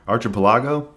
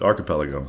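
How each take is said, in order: First: The first syllable sounds like the word arch. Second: The first syllable does not sound like arch. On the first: The speaker calls it wrong. "Arch. ... I hope I didn't say it that way" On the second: The speaker calls it right. "But it's archipelago"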